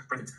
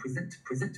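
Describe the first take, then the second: First: "present" stressed on the first syllable, PREZ-ent; noun stress. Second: "present" stressed on the second syllable, pri-ZENT; verb stress. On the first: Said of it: "形容词和名词形式一定是一样的". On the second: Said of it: "提交的动词呢，中间的第二个叫present". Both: Shown as a demonstration.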